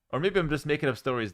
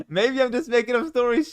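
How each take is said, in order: First: Said in the usual way. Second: Much higher, louder teasing tone after a laugh; playful high voice. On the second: Pretend. Streamer jokes to chat about inventing stories, playful high voice. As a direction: tease them in a raised, silly pitch.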